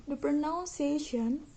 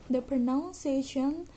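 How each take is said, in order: The two takes are said the same way.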